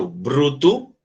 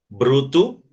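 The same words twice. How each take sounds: Both takes have the same delivery.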